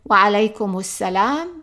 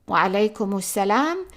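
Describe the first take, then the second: No difference in how they are said.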